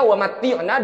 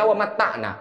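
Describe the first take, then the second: First: The vowel after 'matt' is an 'i'. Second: The vowel after 'matt' is an 'a'. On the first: We ask God to grant us enjoyment. The speaker calls it right. "contohnya wa matti'na" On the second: He made himself happy, not God. The speaker calls it wrong. "dibaca wa matta'na"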